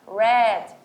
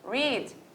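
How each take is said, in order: First: It sounds exactly like the word red. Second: It does not sound like the word red. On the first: It is the past participle, meaning read already. "fica read ... a mesma pronúncia de vermelho" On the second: It is the base form meaning to read. "Read é igual a ler"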